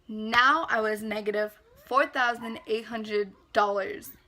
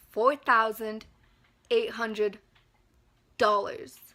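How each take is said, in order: First: Said in the usual way. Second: Each chunk set apart by long pauses; dramatic pauses. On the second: Real, not acted. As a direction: land every number separately. Spells out the debt dramatically.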